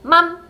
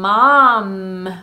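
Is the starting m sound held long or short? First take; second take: short; long. First: The m sound at the start is short. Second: The m sound at the start is held long. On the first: The speaker calls it wrong. "맘 하고 짧게 M을 유지시켜주지 않고" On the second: The speaker calls it right. "mom 할 때 지금 음, 음이 다 들어있어요"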